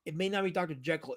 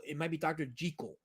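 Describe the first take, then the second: First: Jekyll said with a short e, JECK-ul; common pronunciation. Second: Jekyll said with a long ee, JEE-kul; original pronunciation. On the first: Doubting the name everyone has used, common JECK-ul pronunciation. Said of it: "pronouncing the character's name wrong". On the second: Proposing how the character's name is said, JEE-kul pronunciation. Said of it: "explain why he's called Jekyll". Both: Shown as a demonstration.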